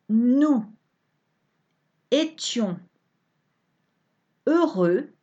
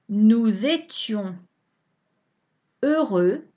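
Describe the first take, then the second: First: The words are said separately without linking sounds. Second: The words are linked with liaison consonants.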